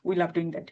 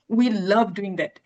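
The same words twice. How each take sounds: First: Said in the usual way. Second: "love" stretched and stressed, pitch lifting then falling; intonation on love. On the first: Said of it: "আমি এরকম normally বলতে পারতাম". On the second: Shown as a demonstration. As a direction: say it slowly, swelling on "love". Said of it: "এটা কিন্তু intonation করে আমি বলেছি". ("love"-এ টান ও জোর, স্বরের ওঠানামা)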